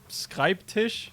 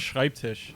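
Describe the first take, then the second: First: The word begins with a 'sk' sound. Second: The word begins with a 'sh' sound. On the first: The speaker calls it wrong. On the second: The speaker calls it right.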